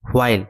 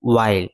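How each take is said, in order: First: The word begins with an audible h sound. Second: The word begins with no h sound. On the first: The speaker calls it wrong. "আমরা কিন্তু হোয়াইল হোয়াইল হয়ের উচ্চারণ করে থাকি" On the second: The speaker calls it right. "হয়ের উচ্চারণ হবে না, হবে ওয়াইল"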